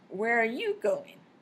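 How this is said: The word you carries the main stress. The person asked is the important point. "this time the stress moved to you"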